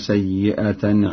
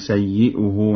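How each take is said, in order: First: The word ends in -atan. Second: The word ends in -uhu.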